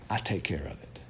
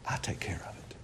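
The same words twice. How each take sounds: First: Low solemn. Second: Whispered I take care of it. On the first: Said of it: "what does the Lord say?". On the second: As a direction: breathe it as a low whisper. Repeats God's line hushed. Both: Acted.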